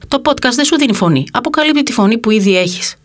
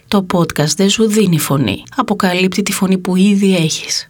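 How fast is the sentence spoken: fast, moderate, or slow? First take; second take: fast; moderate. First: The sentence is spoken quickly. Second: The sentence is spoken at a moderate pace. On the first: The speaker just wants to pass the meaning and move on. "Πρώτα θα την πω γρήγορα" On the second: The speaker lets the listener catch the shift in meaning. "όπως νομίζω ότι πρέπει να ακουστεί"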